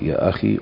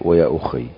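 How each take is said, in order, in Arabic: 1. تُقال akhi، بياء واحدة قصيرة. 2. تُقال ukhayy، بياء مشددة. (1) "بفتح الهمزة وكسر الخاء وتخفيف الياء" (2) "بضم الهمزة وفتح الخاء وتشديد الياء"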